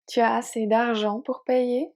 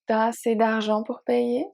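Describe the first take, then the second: First: Tu is said in full before as. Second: Tu is shortened to t' before as.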